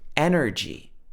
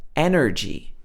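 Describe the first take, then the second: First: It is said in an American accent. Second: The same.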